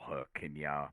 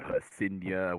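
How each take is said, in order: First: The middle consonant is a hard K sound. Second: The middle consonant is a soft S sound. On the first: "a particular phonetic way you spelt it out" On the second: "with a soft K"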